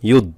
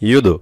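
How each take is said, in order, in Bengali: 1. শেষের ড সমতল, কোনো প্রতিধ্বনি নেই। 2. শেষের ড প্রতিধ্বনিময় ধাক্কা দিয়ে ছাড়া হয়। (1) "যদি ধাক্কা না মারে তাহলে উচ্চারণ হবে ইউদ" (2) "আর ধাক্কা দিলে ইউদ"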